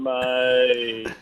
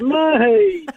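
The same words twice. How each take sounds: First: The word is said in a sad tone. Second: The word is said in a happy tone. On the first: The speaker is unhappy. "you're sad, you go" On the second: The speaker is pleased. "Or you could be happy, you go"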